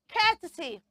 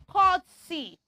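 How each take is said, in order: First: The first syllable does not sound like court. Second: The first syllable sounds like the word court. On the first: The speaker calls it right. "Say courtesy" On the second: The speaker calls it wrong. "we do not say courtesy"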